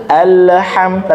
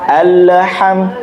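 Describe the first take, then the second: No difference in how they are said.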